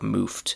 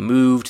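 First: The ending is voiceless, like f plus t. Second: The ending is voiced, like v plus d. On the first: The speaker calls it wrong. "they say something more like moofed" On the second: The speaker calls it right. "instead of saying moved"

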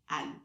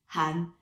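First: The word begins with no H sound. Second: The word begins with an audible H sound. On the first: The word means donkey. The speaker calls it wrong. "they always say, Anne ... in French, you don't pronounce the H" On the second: The word means rooster. The speaker calls it right. "technically you're supposed to pronounce it Han"

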